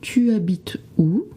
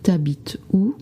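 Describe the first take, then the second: First: Tu is said fully as its own syllable. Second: Tu is squeezed into habites, said quickly.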